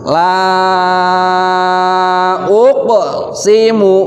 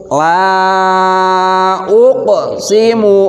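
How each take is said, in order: Both takes have the same delivery.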